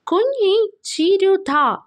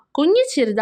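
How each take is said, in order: First: കുഞ്ഞി ചിരുത called out high and slow, the first sound dropped to "uñi"; mispronounced name. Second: Said in the usual way. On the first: Shown as a demonstration. Teacher imitates the classmate mispronouncing കുഞ്ഞി ചിരുത, calling high and slow. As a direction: stretch കുഞ്ഞി ചിരുത like a classmate who can't say it. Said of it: "നല്ല correct അല്ലാതെ ഒരു pronounce ചെയ്യാണ്". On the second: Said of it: "പറയാൻ പറ്റാത്ത പോലെ പറയാണ്".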